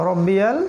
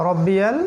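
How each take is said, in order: Both takes have the same delivery.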